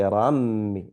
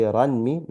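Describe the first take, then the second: First: Rammi with the n merged into a doubled m. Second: Ranmi with the n fully sounded; un-merged ranmi. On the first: Teacher showing the right way, rammi with a held nasal m. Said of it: "We incorporate the nun sakin into the mim". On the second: Teacher showing the wrong way, ranmi with a clear n. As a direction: say ranmi keeping the n before the m. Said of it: "we're not gonna say ranmi". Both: Shown as a demonstration.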